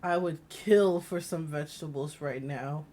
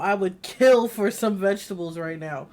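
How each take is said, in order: First: Said in the usual way. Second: Louder, stressed "kill" in "I would kill for some vegetables"; mock burly man. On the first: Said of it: "Let's not put emphasis on the word". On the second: Streamer mocks burly game character's odd line, stressing "kill". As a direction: lean on "kill" like a big brawny guy. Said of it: "big, burly man talking about".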